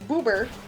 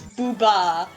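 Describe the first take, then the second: First: It is said with an English pronunciation. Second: It is said with a Japanese pronunciation.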